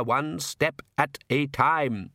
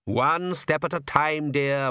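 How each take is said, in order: First: Very slow, word-by-word genial repeat; cheerful, emphatic. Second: Slow, higher, genial patriarch; cheerful. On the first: Count repeats his motto to his daughter, cheerful and measured. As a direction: spell it out cheerfully, each word separate. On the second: Count reassures his sulky daughter, cheerful. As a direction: soothe with unhurried good cheer. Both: Acted. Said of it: "said the Count cheerfully".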